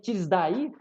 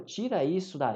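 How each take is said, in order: First: The words are clipped and run together. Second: Every syllable of the words is said fully.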